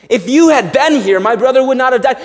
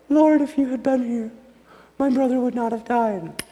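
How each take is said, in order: First: It is said in an indignant, accusing way. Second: It is said in a gentle, poetic way.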